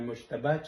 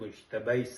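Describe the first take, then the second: First: The name ends in a plain "a" vowel. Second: The name ends in an "ay" sound. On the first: The speaker calls it right. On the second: The speaker calls it wrong.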